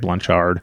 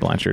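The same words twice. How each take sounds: First: The name is said the Louisiana way. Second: The name is said the speaker's usual way.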